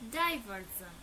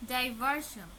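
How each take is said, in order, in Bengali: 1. শেষ অংশে একটি সঘোষ zh ধ্বনি আছে। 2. শেষ অংশে একটি অঘোষ sh ধ্বনি আছে। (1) "আমরা এটিকে কখনোই শান উচ্চারণ করব না" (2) "নয়"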